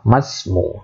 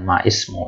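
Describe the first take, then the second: First: The initial i of ismu is dropped, linking to ma. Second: The initial i of ismu is pronounced separately. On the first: The speaker calls it right. "Jadinya ma masmu" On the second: The speaker calls it wrong. "bukan ma ismu"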